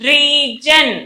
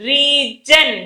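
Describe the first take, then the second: No difference in how they are said.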